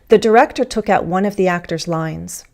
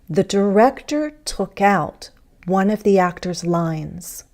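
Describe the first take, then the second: First: The sentence is spoken quickly, sounds run together. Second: The sentence is spoken slowly, each word clear. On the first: "fast speech" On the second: "More carefully"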